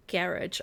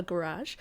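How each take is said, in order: First: "garage" said GARR-idge, stress on the first syllable, hard g and ending in -idge; Kiwi garage. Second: "garage" said guh-RAHZH, stress on the second syllable with a soft zh ending; American garage. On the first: Streamer naming the building her own Kiwi way, GARR-idge. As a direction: give "garage" the New Zealand way, GARR-idge. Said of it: "I would call it". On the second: Streamer showing how Americans say it, guh-RAHZH. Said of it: "Americans and other people in the world call it a garage". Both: Shown as a demonstration.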